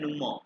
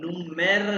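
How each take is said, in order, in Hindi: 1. शब्द एक खुली 'ah' ध्वनि से खत्म होता है। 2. शब्द एक साफ 'er' ध्वनि से खत्म होता है। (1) "जर्मन वाले इसको प्रोनाउंस करते हैं नुमा" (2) "इसको नुमेर नहीं प्रोनाउंस करना"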